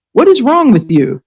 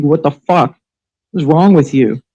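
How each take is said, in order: First: Outraged repeat. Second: Said in the usual way. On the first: Real, not acted. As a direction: blast the question a second time. Repeated outraged question, louder.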